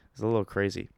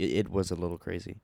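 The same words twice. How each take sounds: First: Said in the usual way. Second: Was leaned on with a rising tune; stress on was. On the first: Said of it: "Not, n-, he's not a little crazy". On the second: Real, not acted. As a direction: stress was so it's the event, not him. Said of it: "he's not a little crazy".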